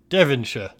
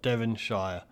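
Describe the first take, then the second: First: It is said with a British pronunciation. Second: It is said with an American pronunciation. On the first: The speaker calls it right. "There it is" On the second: The speaker calls it wrong. "Gosh, you're so American"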